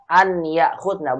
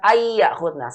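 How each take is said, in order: First: The n is said clearly before the y. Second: The n merges into a doubled y sound. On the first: The speaker calls it right. "an yakhudna, bukan ayyakhudna" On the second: The speaker calls it wrong. "Salah itu"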